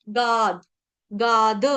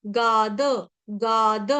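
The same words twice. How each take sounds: The two takes are said the same way.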